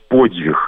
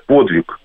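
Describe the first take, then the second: First: «подвиг» with softened dz and breathy final h; Belarusian pronunciation. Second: «Подвиг» with plain d and final k; Russian pronunciation. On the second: Linguist gives the Russian word first, «Подвиг» with plain d. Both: Shown as a demonstration. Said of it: "по-белорусски будет".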